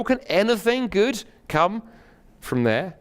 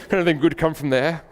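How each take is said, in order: First: Slow, high opening that drops away at the end; sceptical exclamation. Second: Put-on higher-pitched, snobbish Oxford accent; Oxford British accent. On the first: A narrator's reading. Sceptical friend doubts anything good from Nazareth, incredulous exclamation. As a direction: question it with drawn-out disbelief. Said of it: "exclaimed Nathanael". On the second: Preacher mimics snobbish Nathanael for laughs, hammed-up Oxford accent. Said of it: "It's an Oxford accent for you".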